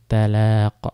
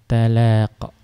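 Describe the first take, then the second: The two takes are said the same way.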